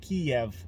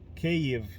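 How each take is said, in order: First: The name is pronounced the Russian way. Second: The name is pronounced the Ukrainian way. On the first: It follows the Russian form of the name. The speaker calls it wrong. "Kiev is saying it in Russian" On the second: It follows the Ukrainian form of the name. The speaker calls it right. "pronounce it Kyiv"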